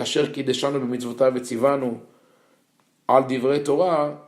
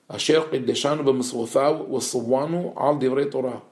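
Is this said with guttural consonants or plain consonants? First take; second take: plain; guttural. First: It is said with plain, non-guttural consonants. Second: It is said with strong guttural consonants. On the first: "if I say" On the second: "In the in my pronunciation, it would sound like that"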